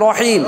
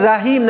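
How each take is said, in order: First: The first vowel is a dark, rounded a. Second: The first vowel is a bright, open a. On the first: The speaker calls it right. "কেমন রহিম" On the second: The speaker calls it wrong. "জবর আসলে আকার উচ্চারণ হবে না"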